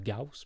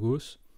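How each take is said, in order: First: The vowel glides from 'a' to 'oo'. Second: The vowel is a plain French 'o' sound. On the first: The speaker calls it right. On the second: The speaker calls it wrong.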